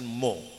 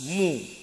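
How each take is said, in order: First: The vowel sounds like an open o. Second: The vowel sounds like a rounded u. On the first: The speaker calls it wrong. "ini seringnya kan mo" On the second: The speaker calls it right. "Harus mu"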